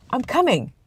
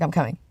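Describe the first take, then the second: First: High-pitched call with a falling end; quick sing-out reply, pitched up then dropping; calling back. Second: Said in the usual way. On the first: Real, not acted. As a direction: answer someone who is waiting for you. Answers someone calling him, off camera.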